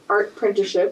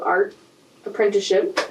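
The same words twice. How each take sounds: First: "art apprenticeship" as one smooth phrase; run together. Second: "art" set apart, a pause before "apprenticeship"; split with a pause. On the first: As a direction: join "art apprenticeship" without a break. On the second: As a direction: say "art", stop, then "apprenticeship". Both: Shown as a demonstration. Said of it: "Put together".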